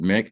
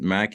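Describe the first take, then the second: First: The prefix is said with an 'i' vowel. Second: The prefix is said with an 'a' vowel. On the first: This is how the guest says the name. "He pronounced it Mick" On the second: This is how the host says the name. "I pronounce it Mac"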